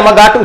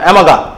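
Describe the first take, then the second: First: The name ends with an audible t sound. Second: The name ends without any t sound. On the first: The speaker calls it wrong. "অ্যামাগাট উচ্চারণ করিস না" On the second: The speaker calls it right. "টি এর উচ্চারণটা উজ্জ্ব থাকবে"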